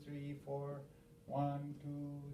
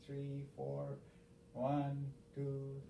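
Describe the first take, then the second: No difference in how they are said.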